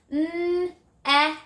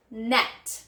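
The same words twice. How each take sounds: First: 'N-et' drawn out sound by sound on a high note; stretched word. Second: Said in the usual way. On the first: Shown as a demonstration. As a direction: hold the n and e of 'N-et', then release the t. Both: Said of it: "Listen again".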